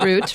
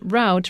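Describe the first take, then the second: First: It uses the East Coast pronunciation of route. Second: It uses the Midwestern or Western pronunciation of route. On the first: "half of America pronounces it route, represented by Bruce" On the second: "half of it pronounces it route, represented by me"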